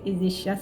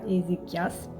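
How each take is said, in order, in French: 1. Le 'ch' se prononce comme un son 'sh'. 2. Le 'ch' se prononce comme un son 'k'. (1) "je pense que c'est Ézéchias" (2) "c'est pas Ézéchias"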